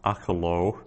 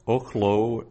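First: "achalo" with an A first, three syllables; long-A misreading. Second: "ochlo" with an O first, two syllables; short-O reading. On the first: Teacher warning Hebrew students off a misreading, "achalo" in three syllables. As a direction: say "achalo" as AH-kha-lo, a short vowel after the kh. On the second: Teacher showing Hebrew students the correct reading, "ochlo" in two syllables. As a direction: say "ochlo" as OKH-lo, no vowel after the kh. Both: Shown as a demonstration. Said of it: "So that's ochlo and not achalo".

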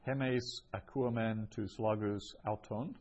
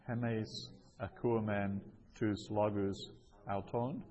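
First: Said in the usual way. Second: Careful model reading with pauses; phrase-by-phrase reading. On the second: Shown as a demonstration. Teacher repeats the example for learners, phrase by phrase. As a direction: set each Greek chunk apart.

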